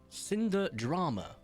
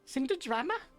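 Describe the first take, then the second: First: It is said in her normal accent. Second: It is said in a Valley Girl accent.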